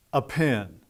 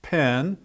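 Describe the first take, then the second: First: "a pen" with a short unstressed "a" before the noun; article included. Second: Said in the usual way. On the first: Shown as a demonstration. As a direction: lead lightly through "a" into "pen". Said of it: "always include the indefinite article". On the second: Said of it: "hold up an article and say".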